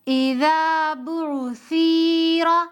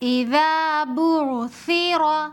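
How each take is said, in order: First: The short vowels are drawn out and impure. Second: The short vowels are quick, clipped and pure. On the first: The speaker calls it wrong. "अक्सर लोग यहाँ पर इस तरह पढ़ते हैं ... इस तरह पढ़ना गलत है" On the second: The speaker calls it right. "बगैर खींचे जल्दी पढ़ेंगे"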